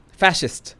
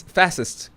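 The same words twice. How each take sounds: First: Fascist said as fæ-shist with a sh sound; pron with sh. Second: Fascist said as fæ-sist with a plain s sound; pron with s. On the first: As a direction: say Fascist with sh in the middle. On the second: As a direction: say fascist with a hard s in the middle. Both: Shown as a demonstration. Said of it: "first syllable".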